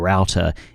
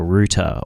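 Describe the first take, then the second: First: The word is said the American way. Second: The word is said in a non-American way.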